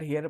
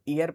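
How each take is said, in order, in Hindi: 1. शब्द की शुरुआत में साफ़ 'h' की ध्वनि है। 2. शब्द सीधे स्वर की ध्वनि से शुरू होता है। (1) "इसको बच्चे हियर हियर पढ़ेंगे" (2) "यहाँ एच साइलेंट हो जाता है, इसको ईयर पढ़ेंगे"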